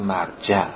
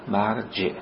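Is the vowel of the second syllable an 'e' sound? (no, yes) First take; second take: no; yes. First: The second syllable has no 'e' vowel. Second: The second syllable has an 'e' vowel. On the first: The speaker calls it wrong. "به فارسی غلط ما میگیم مرجع" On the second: The speaker calls it right. "اما درستش به کسر جیمه"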